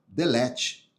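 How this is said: It is read with a Brazilian Portuguese pronunciation. The speaker calls it wrong. "eu vou falar com, com, com como brasileiro"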